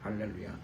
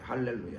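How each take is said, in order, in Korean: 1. 작은 소리로 힘없이 말해요. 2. 큰 소리로 힘차게 말해요. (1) "볼륨이 현저히 떨어지고" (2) "받은 날은 감사했을 거예요"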